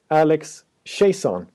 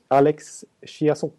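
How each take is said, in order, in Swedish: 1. Namnet uttalas med ett engelskt uttal. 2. Namnet uttalas med ett fransk-kanadensiskt uttal. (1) "nu ska jag sätta uttalet" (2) "om man ska köra fransk-kanadensiska"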